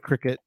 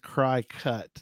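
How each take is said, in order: First: The first syllable sounds like 'crick'. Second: The first syllable sounds like 'cry'. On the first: "We call it cricket" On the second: "I think it's cry cut"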